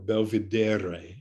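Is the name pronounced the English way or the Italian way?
Italian. The name is pronounced the Italian way.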